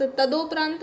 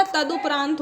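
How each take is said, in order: First: तदोपरांत with a long "o" after d; wrong vowel. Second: तदुपरांत with a short "u" after d; short "du" sound in तदुपरांत; correct vowel. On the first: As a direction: say तदोपरांत as "ta-do-praant". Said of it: "तदोपरांत नहीं होता". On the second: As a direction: say तदुपरांत as "ta-du-praant". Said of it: "तदुपरांत होता है". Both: Shown as a demonstration.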